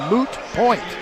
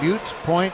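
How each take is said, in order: First: The first word is said with a plain oo sound. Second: The first word is said with a yoo sound. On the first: The speaker calls it right. "it should be moot" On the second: The speaker calls it wrong. "Some people say a mute point"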